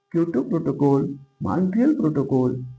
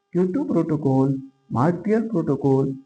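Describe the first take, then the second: The two takes are said the same way.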